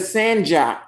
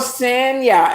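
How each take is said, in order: First: The middle consonant sounds like an English j. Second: The middle consonant sounds like an English y. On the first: The speaker calls it wrong. "instead of Sanja" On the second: The speaker calls it right. "it's pronounced Sanya"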